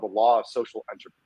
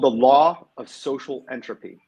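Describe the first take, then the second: First: The title is said quickly. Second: The title is said slowly. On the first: The speaker calls it wrong. "You said that too fast" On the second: The speaker calls it right. "Say it again"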